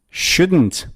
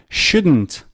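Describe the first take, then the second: No difference in how they are said.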